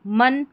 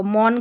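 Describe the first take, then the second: First: मन with a short "uh", "mun"; short neutral vowel in मन; correct short vowel. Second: मौन with a long "aw", "mawn"; wrong open vowel. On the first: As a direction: say मन to rhyme with "sun". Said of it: "मन करके इसका उच्चारण होगा". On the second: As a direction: say मौन to rhyme with "dawn". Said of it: "मौन करके नहीं पढ़ेंगे". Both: Shown as a demonstration.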